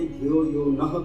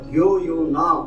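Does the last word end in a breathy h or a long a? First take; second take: breathy h; long a. First: The last word ends with a short breathy h. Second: The last word ends with a long a vowel. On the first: It asks to be given knowledge and strength. The speaker calls it right. "उसके पीछे विसर्ग है" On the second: It claims there is no need for those gifts. The speaker calls it wrong. "धियो यो ना आपने कह दिया"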